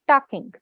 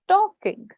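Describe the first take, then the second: First: The first vowel sounds like 'ah'. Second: The first vowel sounds like 'or'. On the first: The speaker calls it wrong. "When you were speaking, you said talking" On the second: The speaker calls it right. "you said it perfectly fine"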